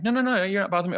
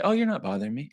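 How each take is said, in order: First: Very high, mock-insistent protest; hammed-up reassuring denial, much higher; insistent reassurance. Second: Higher-pitched mock-polite reassurance; acted social nicety, pitched up. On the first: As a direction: protest over-politely, pitch shooting right up. Acting out more insistent reassurance. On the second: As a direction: reassure lightly, voice lifting at the end. Acting listener's polite reassurance.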